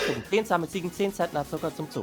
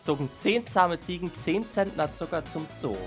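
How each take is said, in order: First: The sentence is spoken at a normal pace. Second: The sentence is spoken slowly and deliberately. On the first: "I'll say it normally" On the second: "I'll say it slowly for once"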